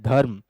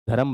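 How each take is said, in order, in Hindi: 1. र और म एक साथ जुड़े हुए हैं। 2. र और म के बीच एक स्वर आता है। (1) "इसमें क्या है? आधा वर्ण" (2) "इसी को पूरा कर दूं"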